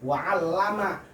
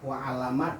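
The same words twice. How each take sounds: First: The l sound is doubled and held longer. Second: The l sound is short and single. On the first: And he taught. The speaker calls it right. "kalau ada tasnya" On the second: And he knew. The speaker calls it wrong. "Kalau nggak ada tasnya"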